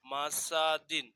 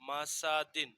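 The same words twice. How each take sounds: First: মাসা দিন drawn out slowly; slow model reading. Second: Said in the usual way. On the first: Shown as a demonstration. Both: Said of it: "দাল দুই জের দিন".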